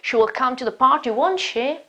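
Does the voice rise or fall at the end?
rise. The voice rises at the end.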